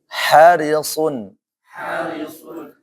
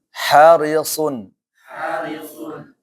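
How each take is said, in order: No difference in how they are said.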